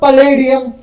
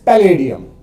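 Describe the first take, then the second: First: The first vowel is a short 'uh' sound. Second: The first vowel is an open 'a' sound. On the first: The speaker calls it wrong. "Wrong pronunciation" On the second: The speaker calls it right. "It's पैलेडियम"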